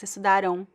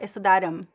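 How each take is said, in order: First: The word ends in a nasal vowel without m. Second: The word ends with an audible m sound. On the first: The speaker calls it right. "it's estudaram" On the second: The speaker calls it wrong. "There's no m, it's not estudaram"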